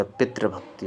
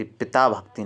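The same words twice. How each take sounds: First: "पितृभक्ति" with tri before bhakti; correct form demonstrated. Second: "पिता भक्ति" with taa before bhakti; wrong form demonstrated. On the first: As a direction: roll t into r in "पितृभक्ति". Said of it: "पितृभक्ति होता है". ("पितृभक्ति" में तृ) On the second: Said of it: "पिता भक्ति नहीं होता". ("पिता भक्ति" में ता) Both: Shown as a demonstration.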